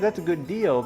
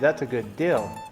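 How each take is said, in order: First: The word deal has a long ee vowel. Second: The word deal sounds like dill. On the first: "instead of saying" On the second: "like where we grew up, they say"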